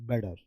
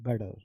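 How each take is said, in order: Both takes have the same delivery.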